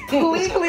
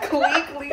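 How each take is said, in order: First: "Pleakley" said with a clear PL at the start; correct Pleakley. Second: "Cleekly" said with a K sound where PL belongs; mock the mistaken "Cleekly" with a hard C; wrong Cleekly. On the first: Shown as a demonstration. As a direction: stress the PL in "Pleakley" as the correct name. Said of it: "it's Pleakley, not Cleekly". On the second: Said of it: "not Cleekly".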